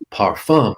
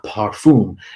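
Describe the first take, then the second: First: It is pronounced the French way. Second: It is pronounced the English way. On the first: The speaker calls it right. "the way you say things in French ... it is parfum" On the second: The speaker calls it wrong. "not parfum"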